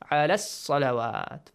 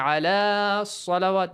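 First: The two words run together quickly, vowel shortened. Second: The long vowel is held before the next word. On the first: The speaker calls it right. "Fast. Join them" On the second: The speaker calls it wrong. "You don't say ala salawat"

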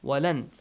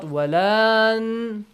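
First: The vowel after the L is short and quick. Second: The vowel after the L is drawn out long. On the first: The speaker calls it right. "It will be changed to short vowel sound. Fast and furious" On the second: The speaker calls it wrong. "Not walan"

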